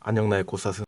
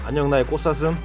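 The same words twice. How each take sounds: First: The voice is pitched lower and deeper. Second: The voice is at its normal pitch.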